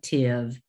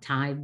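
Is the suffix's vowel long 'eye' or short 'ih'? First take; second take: ih; eye. First: The suffix has a short 'ih' vowel. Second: The suffix has a long 'eye' vowel. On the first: The speaker calls it right. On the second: The speaker calls it wrong. "It is not"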